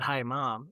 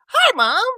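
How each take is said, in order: First: It is said flatly, without exclamation. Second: It is said excitedly, like an exclamation.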